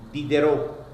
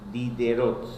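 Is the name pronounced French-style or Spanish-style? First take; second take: Spanish-style; Spanish-style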